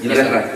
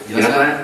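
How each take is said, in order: Both takes have the same delivery.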